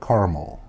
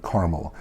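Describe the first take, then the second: No difference in how they are said.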